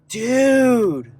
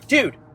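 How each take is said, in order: First: The word is drawn out long. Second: The word is said short and clipped. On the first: The speaker is surprised by something. "you used dude as a surprise" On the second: The speaker is referring to a guy. "if you say dude short, like the word is short"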